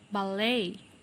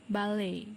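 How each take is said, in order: First: It is said in an American accent. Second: It is said in a British accent. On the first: "then the American English" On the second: "first for the British English"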